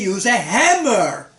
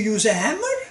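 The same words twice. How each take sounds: First: The voice falls at the end like a command. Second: The voice rises at the end like a question. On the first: It is an order. "and then it's an order" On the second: It is a question. "And now it's a question"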